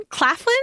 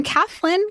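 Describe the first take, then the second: First: "Claflin" with a clear KL at the start, questioning; both Ls sounded. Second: "Claflin" said without its first L, like "Caflin"; first-syllable L dropped. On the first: Host trying the other surname form, "Claflin" with both Ls. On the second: Host unsure of an actor's surname, "Claflin" said as "Caflin". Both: Shown as a demonstration. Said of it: "I've seen it spelled both ways".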